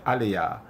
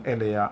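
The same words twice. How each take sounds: First: "Aliyah" said with an A at the start, ah-LEE-yah; wrong vowel. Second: "Eliah" said with a clear E at the start, eh-LEE-ah; correct Hebrew name. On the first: Teacher showing the mistaken form, "Aliyah" with an A. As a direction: swap the first vowel to A, as in "Aliyah". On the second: Teacher giving students the correct form, "Eliah" with an E. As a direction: start "Eliah" on an open E sound, not an A. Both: Shown as a demonstration. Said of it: "they replace the E".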